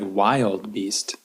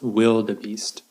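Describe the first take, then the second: First: The word is said with two syllables. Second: The word is said with three syllables. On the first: The speaker calls it wrong. "that kind of looks like wild beast" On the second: The speaker calls it right. "But it's pronounced wildebeest"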